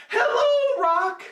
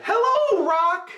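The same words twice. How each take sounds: First: Same high sing-song hello; high monkey greeting. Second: Bright high call to the rock; high monkey greeting. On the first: Monkey trying the rock a second time, high call. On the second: Monkey testing the suspicious rock, high sing-song call. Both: A narrator's reading.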